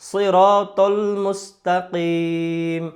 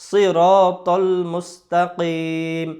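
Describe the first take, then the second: Both takes have the same delivery.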